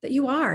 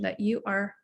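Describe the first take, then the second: First: "that you are" lifted higher and louder, falling on "are"; emphatic repeat. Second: Said in the usual way. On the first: Shown as a demonstration. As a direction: press the repeat, landing on "are". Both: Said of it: "repeats the phrase".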